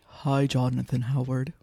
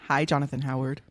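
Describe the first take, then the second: First: The voice is pitched lower and deeper. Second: The voice is at a normal, everyday pitch. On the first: The speaker calls it right. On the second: The speaker calls it wrong.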